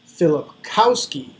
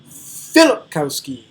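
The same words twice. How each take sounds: First: The stress falls on the usual syllable. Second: The stress falls on a different syllable. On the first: The speaker calls it right. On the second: The speaker calls it wrong.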